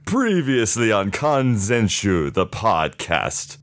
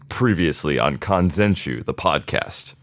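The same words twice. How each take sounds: First: It is said in an overacted, dramatic tone. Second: It is said in a stern tone.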